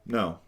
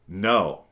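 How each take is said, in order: First: The no is said calmly and plainly. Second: The no is said more firmly and sharply. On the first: A boundary is being stated. "The first no, that's my boundary" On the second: The boundary has been crossed again. "The tone changes"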